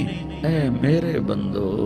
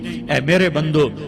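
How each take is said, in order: First: It is said in a warm, loving tone. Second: It is said in a plain, neutral tone. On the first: The speaker calls it right. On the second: The speaker calls it wrong.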